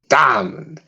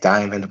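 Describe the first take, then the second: First: The word is said loudly with great force. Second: The word is said calmly at normal volume. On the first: "just basically saying with all his might" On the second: "just normally spoken out"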